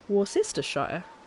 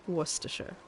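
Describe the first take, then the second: First: The word is pronounced the way it is spelled. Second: The word is not pronounced the way it is spelled. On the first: This is how the spelling makes it look. "You'd think it was Worcestershire" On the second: This is how the word is really said. "when you look at that word, you would not think it was Worcestershire"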